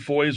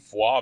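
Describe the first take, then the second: First: The name is pronounced the plain English way. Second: The name is pronounced the European way.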